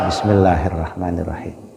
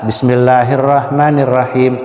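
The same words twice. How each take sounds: First: The phrase is recited more softly. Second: The phrase is recited loudly. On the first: "Ada yang tidak terlalu keras" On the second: "Pertama dibaca dengan keras"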